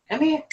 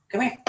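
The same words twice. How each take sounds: First: High-pitched call to a cat; high coaxing call. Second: Said in the usual way. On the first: Real, not acted. Calling the cats over.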